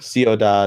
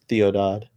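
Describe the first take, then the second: First: The word begins with an s sound. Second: The word begins with a th sound. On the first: "Instead of s-" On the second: "they replace all the s- sounds with sounds, th sounds"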